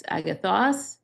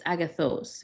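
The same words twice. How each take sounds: First: Agathos ending in a short, open "-oss". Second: Agathos ending in a long "-ohs". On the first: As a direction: say agathos with an open o in the last syllable. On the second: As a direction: say agathos with a long o in the last syllable. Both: Shown as a demonstration. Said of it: "You just tack on the os".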